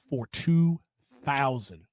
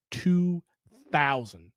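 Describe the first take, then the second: First: Said in the usual way. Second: "Two" and "thousand" split by a pause, each word hit; stress on two thousand. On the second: Shown as a demonstration. Repeating the count to viewers, slow and stressed. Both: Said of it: "Let me say that again".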